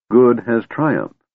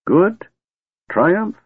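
First: Said in the usual way. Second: Much higher, disbelieving echo; incredulous repeat. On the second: Acted. Old wizard echoes Tanis in disbelief, much higher. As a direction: scoff at the very idea. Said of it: "Fizban repeated".

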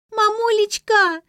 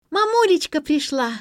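First: Very high, loud, drawn-out howl; child's wail. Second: Put-on high, loud joyful child's cry; delighted child. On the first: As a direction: scream for mummy, stretching it out. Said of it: "завопила Лера". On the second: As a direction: squeal happily that mum is home. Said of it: "обрадовалась младшая дочь". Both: A narrator's reading.

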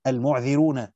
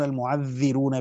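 First: المعذرون with a single, unstressed ذ: mu'dhirun; light reading, no shadda. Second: المعذرون with the ذ doubled and held: mu'adhdhirun; doubled reading, with shadda. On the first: Teacher citing Yaqub's reading, المعذرون said with single ذال. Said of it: "بالتخفيف". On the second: Teacher citing the other readers, المعذرون with doubled ذال. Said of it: "بالتشديد". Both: Shown as a demonstration.

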